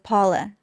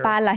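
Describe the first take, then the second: First: It is said with a heavy American accent. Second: It is said with a native Spanish accent. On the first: The speaker calls it wrong. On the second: The speaker calls it right.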